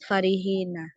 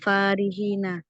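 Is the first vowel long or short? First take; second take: short; long. First: The first vowel is kept short. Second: The first vowel is held long. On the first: This is the other accepted reading of the word. "membaca tanpa alif" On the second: This is one accepted reading of the word. "membaca dengan alif"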